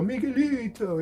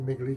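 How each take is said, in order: First: The name is said in a warm, affectionate way. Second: The name is said in a plain, flat way. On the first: The speaker calls it right. "You go Miguelito. It's it's a, an endearing way" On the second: The speaker calls it wrong. "You don't just say Miguelito"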